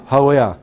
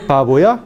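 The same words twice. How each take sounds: First: "haboya" with lips never meeting; fricative b. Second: "baboya" with both lips closing firmly; hard stopped b in "baboya"; wrong plosive b. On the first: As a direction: let air through the b of "haboya". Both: Shown as a demonstration. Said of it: "No baboya".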